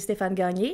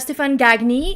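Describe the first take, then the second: First: The name is said with a French accent. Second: The name is said with an English accent.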